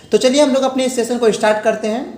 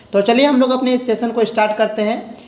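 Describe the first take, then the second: Both takes have the same delivery.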